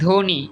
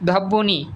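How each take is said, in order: First: No 'b' sound is heard after the first consonant. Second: A doubled 'b' sound is heard after the first consonant. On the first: The speaker calls it right. "আমার এই ব ফলা উচ্চারণ হয় না" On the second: The speaker calls it wrong. "এগুলো বলছি? বলি নাই"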